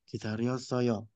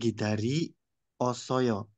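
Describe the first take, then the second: First: The i merges with the next vowel into yo. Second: The i stays separate from the next vowel. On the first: The speaker calls it right. "berubah menjadi yod" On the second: The speaker calls it wrong.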